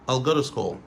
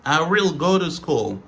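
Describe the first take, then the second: First: "I'll" run into one short syllable; casual contracted "I'll"; reduced form. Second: I WILL as two full separate words; careful, louder full form of "will". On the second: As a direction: articulate "I will" fully, unreduced. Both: Shown as a demonstration. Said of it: "Autre réduction".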